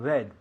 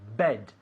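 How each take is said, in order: First: The b is soft without a burst. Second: The b is released with a strong burst. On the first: The speaker calls it wrong. "not bed" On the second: The speaker calls it right. "es un sonido explosivo"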